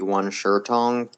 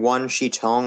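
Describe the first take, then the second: First: The middle word sounds like 'shur'. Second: The middle word sounds like 'she'. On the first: The speaker calls it right. "which should be" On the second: The speaker calls it wrong. "most people would pronounce it one she"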